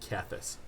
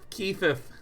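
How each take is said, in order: First: The s sound is said plainly. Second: The s sound is lisped like th. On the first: "I would pronounce it Kethis" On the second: "the pronunciation that's very lispy in nature"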